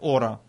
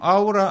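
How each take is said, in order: First: The word begins with a plain o sound. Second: The word begins with the diphthong au. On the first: This is how English speakers say it. "они говорят «ора»" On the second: This is how Russian speakers say it. "Мы говорим «аура»"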